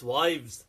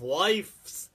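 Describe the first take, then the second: First: "wives" with a voiced v and z; correct plural "wives". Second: "wives" said with an f, as "wifes"; wrong plural "wifes". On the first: Correcting the plural of wife, "wives" voiced with a v. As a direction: say "wives" with v, not f. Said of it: "is not wives". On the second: Mocking a misspelt plural, "wives" said as "wifes". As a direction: say "wives" with a hissless f before the s. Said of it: "it's wives". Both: Shown as a demonstration.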